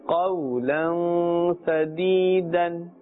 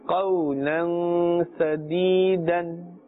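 The two takes are said the same way.

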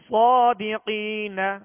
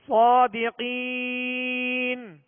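First: The final syllable is carried on with a vowel. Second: The word stops short on its final consonant. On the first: The reading continues into the next word. "پہلا ہم نے وصلن پڑھا" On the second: The reading stops at this word. "دوسرا وقف کی صورت میں پڑھا"

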